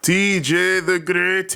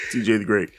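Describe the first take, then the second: First: Grand ring announcer name call. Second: Said in the usual way. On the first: Pretend. Grand self-introduction.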